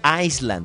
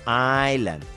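First: The s sound is pronounced in the word. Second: The s sound is silent in the word. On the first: The speaker calls it wrong. "No se dice Island" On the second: The speaker calls it right. "sino Island"

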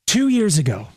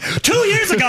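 First: The voice is softened and lowered. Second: The voice is plain, not softened or lowered. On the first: The story being told is a feel-good one. "You always soften and lower the voice" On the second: The speaker sounds like he is complaining. "You can't tell a feel-good story in this tone"

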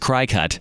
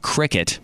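First: The first syllable sounds like 'cry'. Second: The first syllable sounds like 'crick'. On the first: The speaker calls it wrong. "which I was saying is cry cut" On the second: The speaker calls it right. "My most recent one has only been cricket"

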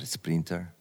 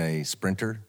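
First: The word is said imitating a foreign local pronunciation. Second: The word is said in the speaker's usual pronunciation.

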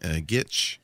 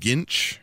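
First: A t sound comes before the final ch. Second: An n sound comes before the final ch. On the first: "Ash always says gitch. with the T" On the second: "which is the my pronunciation with the N in there"

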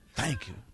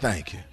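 First: The words are said in a quiet whisper. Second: The words are said in a loud voice. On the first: A thanks given secretly, so others won't notice. The speaker calls it wrong. "He didn't whisper it" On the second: A thanks given openly, so everybody hears it. The speaker calls it right. "With a loud voice"

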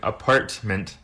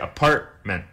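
First: The T is fully pronounced. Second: The T is a glottal stop. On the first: The speaker calls it wrong. "Nobody ever really pronounces the T like apartment" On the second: The speaker calls it right. "The T becomes a bit of a glottal stop. People say apartment"

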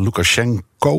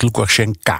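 First: The name ends with an 'o' vowel. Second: The name ends with an 'a' vowel.

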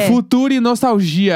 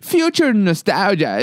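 First: It is pronounced with Portuguese sounds. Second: It is pronounced with English sounds.

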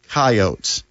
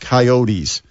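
First: The word is said the local way. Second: The word is said the usual way. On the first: This is how people in the region say the name. The speaker calls it right. "in South Dakota, they call it Coyotes" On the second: This is how the name looks from its spelling. The speaker calls it wrong. "It's not Coyotes"

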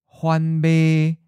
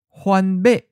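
First: The last syllable is mid-pitched, level and not cut off. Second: The last syllable is high and cut off abruptly. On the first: "Mid flat" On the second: "High stop"

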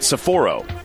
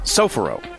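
First: The stress is not on the first syllable. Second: The stress is on the first syllable. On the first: The speaker calls it wrong. "Because you were saying it" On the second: The speaker calls it right. "Accent on the first syllable"

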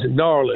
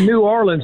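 First: The city name is said the local Southern way. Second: The city name is said an outsider way. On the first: The speaker calls it right. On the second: The speaker calls it wrong.

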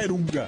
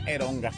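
First: The vowels are e then u. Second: The vowels are e then o. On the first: "se pronuncia en michoacano la banda Erunga" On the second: "si le quieres meter españolito así normal, sería Eronga"

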